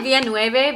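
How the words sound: The name is pronounced the Spanish way. The speaker calls it wrong. "I think of it in Spanish pronunciation"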